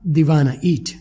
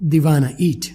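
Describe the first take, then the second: First: The words are blended together into 'dewanna'. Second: The same.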